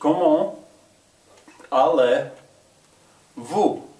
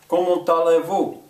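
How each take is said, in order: First: Three words are said apart, with no linking T. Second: The words run together, with a T linking them. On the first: "say three separate words" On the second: "Now I'm going to say it together"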